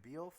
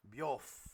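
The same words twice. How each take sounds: First: "Beowulf" tried tentatively, rising like a question; unsure pronunciation. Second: "Beowulf" repeated as corrected, run together as "Byolf"; corrected pronunciation. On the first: Game master checking a name with its player, "Beowulf" said unsurely. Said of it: "did I say it right?". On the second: Game master copying the player's correction, "Beowulf" said as "Byolf". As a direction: echo "Beowulf" as a compact "Byolf". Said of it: "got it". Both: Real, not acted.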